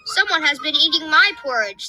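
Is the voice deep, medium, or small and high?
medium. It is said in a middle-sized, medium voice.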